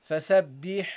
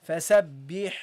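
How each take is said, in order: No difference in how they are said.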